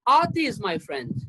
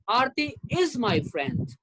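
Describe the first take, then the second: First: The word Aarti carries the strongest stress. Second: The word is carries the strongest stress. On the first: It is this particular person who is the friend. "I'm emphasizing on the word Aarti" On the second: The friendship continues in the present. "That means she is still my friend"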